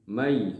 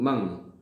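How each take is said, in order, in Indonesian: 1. Bunyi n menyatu menjadi bunyi y yang bersengau. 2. Bunyi n diucapkan sebagai ng yang keras. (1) "tetapi dibacanya mai" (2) "bukan bunyi eng"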